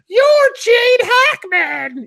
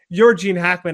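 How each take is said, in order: First: It is screamed very loudly. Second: It is said calmly at a normal volume. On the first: "I like screamed it" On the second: "it wasn't like"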